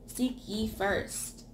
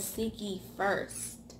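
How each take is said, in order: First: Slow, each word weighed: Seek ye first; slow emphatic reading. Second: Seek ye first drawn out slow and soft; slow emphatic repeat. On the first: Preacher stressing the order of the verse, slow and deliberate. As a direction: lean into Seek ye first, slowly. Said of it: "It doesn't say middle". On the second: Preacher repeating scripture to drive it home, soft and slow. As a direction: press on the word first, slowly. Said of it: "It says". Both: Shown as a demonstration.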